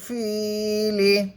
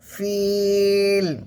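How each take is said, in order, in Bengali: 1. এটি একটি ছোট i স্বরধ্বনিতে শেষ হয়। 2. এটি l দিয়ে শেষ হয়, লম্বা টানা i সহ। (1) "লাম জের লি" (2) "থামলে শেষের অক্ষরটা কিন্তু সাকিন করতে হবে"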